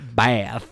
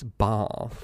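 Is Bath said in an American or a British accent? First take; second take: American; British. First: The word is said in an American accent. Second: The word is said in a British accent. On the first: The speaker calls it wrong. "not Bath" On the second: The speaker calls it right. "drum their American accent out of them"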